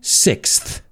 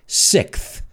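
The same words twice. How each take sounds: First: It is said the American way, ending in s. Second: It is said the British way, ending in th.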